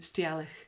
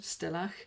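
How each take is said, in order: First: The word begins with a longer 'stee-al' sound. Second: The word begins with a short 'stell' sound. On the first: This is how a Scottish reader would read the spelling. "option two, ... That's how my Scottish brain would read Stialach" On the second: This is how a pronunciation website gives it. "option one, ... it said Stellach"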